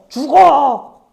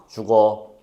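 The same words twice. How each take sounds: First: It is said in an angry tone. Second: It is said in a neutral tone. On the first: The speaker is furious at the listener. "분노라는 마음이 느껴져요" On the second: The speaker is just passing on information. "정보를 전달하려는 의도가 느껴져요"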